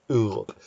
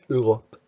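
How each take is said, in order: First: The word has a French pronunciation. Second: The word has a French pronunciation.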